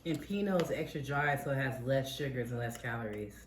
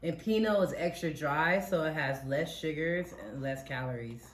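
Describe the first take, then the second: First: The sentence is said at a quieter volume. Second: The sentence is said at a louder volume. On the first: The speaker calls it wrong. "I don't know if they can hear you" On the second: The speaker calls it right. "Say it louder"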